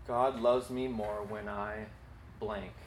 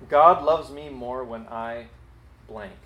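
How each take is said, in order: First: Slow and quieter second dictation; soft slow repeat; softer slow repeat. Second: Slow, spelled-out dictation; slow dictating voice. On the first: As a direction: repeat it gently for writers. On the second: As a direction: read it slowly for people to write. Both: Shown as a demonstration. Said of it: "write down these two sentences".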